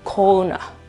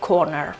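First: The final r is left silent. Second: The final r is clearly pronounced. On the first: "dovrebbe essere pronunciato senza le R" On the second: "secondo la pronuncia americana, ok? O comunque la pronuncia rotica"

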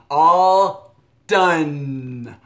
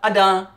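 First: Both words are said fully and clearly. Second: It is shortened to two quick syllables. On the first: "When I say all done, I start with my mouth open and I'm going to use my tongue behind my teeth" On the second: "Some people might just say a-da"

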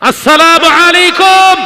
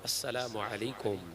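First: The greeting is said at its loudest. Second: The greeting is said at normal volume.

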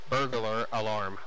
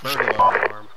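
First: The phrase is said at a normal pace. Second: The phrase is said quickly. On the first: "Say burglar alarm" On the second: "Say it quickly"

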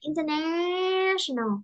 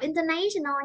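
First: The stressed vowel is short 'a' as in 'cat'. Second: The stressed vowel sounds like 'ay' in 'day'. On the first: The speaker calls it right. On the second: The speaker calls it wrong.

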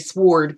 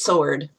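First: The W sound is pronounced. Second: The W sound is silent. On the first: "I like to say sword because there's a W in there" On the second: "I know it's sword"

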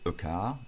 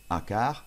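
First: The article is a short reduced 'uh' vowel. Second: The article is a full open 'ah' vowel. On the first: The speaker calls it right. "ça se prononce E. ... C'est a car" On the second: The speaker calls it wrong. "ne dites surtout pas à car"

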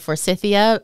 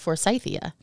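First: The word is pronounced the way Americans say it. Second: The word is pronounced the way England says it. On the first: "here in the U.S., we started calling it Forsythia" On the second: "in England, they call it Forsythia"

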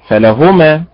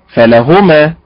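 Both takes have the same delivery.

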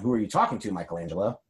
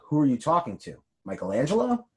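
First: There is no pause before Michelangelo. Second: There is a pause before Michelangelo.

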